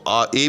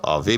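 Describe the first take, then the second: First: The vowels run together without a v sound. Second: A v sound is heard between the vowels. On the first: This is the form in current use. "आ ए जो है ये आजकल का अ, मुस्तअमल अ, accent है" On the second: This is an old form no longer in use. "आवे जो है ये क़दीम है"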